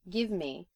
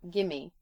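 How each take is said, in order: First: Both words are pronounced fully and separately. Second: The words run together into one reduced form.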